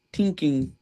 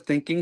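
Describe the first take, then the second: First: "tinking" with a hard T for TH; "tinking", TH turned into T as in an Irish accent; imitated Irish pronunciation. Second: Said in the usual way. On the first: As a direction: say "tinking", starting on a plain T sound. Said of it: "I love Maura Higgins', uh, accent". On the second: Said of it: "instead of thinking, she says tinking".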